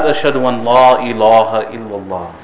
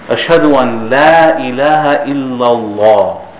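First: The L sounds are heavy and thick. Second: The L sounds are light and thin. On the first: The speaker calls it wrong. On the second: The speaker calls it right. "it is thin everywhere else in the Arabic language"

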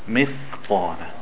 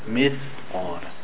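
Both takes have the same delivery.

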